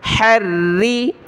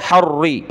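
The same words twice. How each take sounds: First: Harri with a light, thin ra. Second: Harri with a full, heavy ra. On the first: Teacher shows a light ra in Harri. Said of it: "रा को मोटा नहीं करना". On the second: Teacher shows the wrong heavy ra in Harri. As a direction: darken the ra in Harri. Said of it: "मोटा किस तरह होगा?". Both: Shown as a demonstration.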